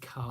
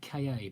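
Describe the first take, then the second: First: It is said as a single one-syllable word. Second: It is spelled out as two separate letters. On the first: "some people say it's Ka, like the Egyptian" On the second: "I've always pronounced it K A"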